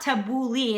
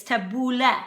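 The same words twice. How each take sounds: First: Tabbouleh with a long ee at the end; wrong pronunciation. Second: Tabbouleh ending in a short eh; correct pronunciation. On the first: Cook rejecting the common version, mispronounced. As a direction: say tabbouleh as ta-boo-LEE. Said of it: "but it's not tabbouleh". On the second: Cook correcting the salad's name, properly pronounced. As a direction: say tabbouleh as ta-BOO-leh, not lee. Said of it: "it's tabbouleh". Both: Shown as a demonstration.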